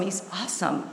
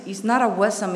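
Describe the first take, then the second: First: Said in the usual way. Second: "awesome" said as uh-WESS-um; wrong pronunciation of awesome. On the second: Retold or imitated. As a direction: quote the mistake, "awesome" with stressed WESS in the middle.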